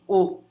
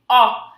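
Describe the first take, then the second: First: The vowel is said with a closed quality. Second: The vowel is said with an open quality. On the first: "Com o timbre fechado assim" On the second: "esse timbre ele vai abrir"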